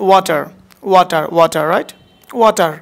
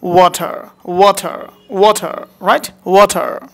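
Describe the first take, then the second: First: ওয়াটার with open "waa" and plain t; everyday pronunciation. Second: ওয়াটার with rounded "waw" and aspirated t; smart pronunciation. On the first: Teacher showing learners the normal way, ওয়াটার as "waa-tar". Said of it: "normal একটা ওয়েতে বলা হচ্ছে". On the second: Teacher drilling the smart way, ওয়াটার as "waw-thar". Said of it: "ওয়াটার না বলে কি বলবো". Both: Shown as a demonstration.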